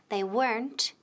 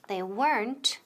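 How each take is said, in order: No difference in how they are said.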